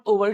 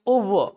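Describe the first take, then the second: First: "over" with the final r voiced; Hindi-style "over" keeping its r; r sounded. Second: "over" as "oo-vuh", no r; silent final r. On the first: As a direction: close "over" on an r. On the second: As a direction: end "over" on a short schwa. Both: Shown as a demonstration. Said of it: "आर बचना है".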